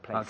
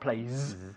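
First: The word ends with a sharp hissed S. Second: The word ends with a buzzing Z sound. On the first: The speaker calls it right. "con el S silbado" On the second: The speaker calls it wrong. "not place"

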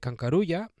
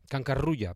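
First: The r is a single short tap. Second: The r is a strongly rolled trill. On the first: The speaker calls it wrong. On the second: The speaker calls it right.

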